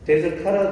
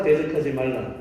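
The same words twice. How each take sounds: First: 대적하라 said louder as the rejected version; pointedly stressed 대적하라, set against the right reading; wrong reading, stressed. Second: 대적하지 말라 said firmly with falling tune; emphatic 대적하지 말라 closing with a fall; correct reading. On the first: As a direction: punch 대적하라 as the contrast to avoid. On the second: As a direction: settle on 대적하지 말라 as the true word. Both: Shown as a demonstration.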